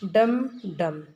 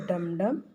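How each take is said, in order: First: "डम डम" beaten out like a small drum; damru drum imitation. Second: Said in the usual way. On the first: Shown as a demonstration. Teacher acts out the damru sound for the class, punchy "डम डम". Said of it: "अब डमरू की ध्वनि कैसी होती है?". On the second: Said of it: "कैसी होती है?".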